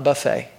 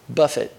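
First: It is said like the word for a food spread. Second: It is said like the word meaning to strike. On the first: It means a meal where people serve themselves. The speaker calls it wrong. "not buffet" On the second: It means handling the body roughly. The speaker calls it right. "Now notice the pronunciation of that word"

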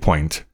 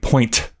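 First: The final consonant sounds like a soft D. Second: The final consonant is a crisp T sound. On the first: "it turns into a D instead of a T" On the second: "Instead of saying"

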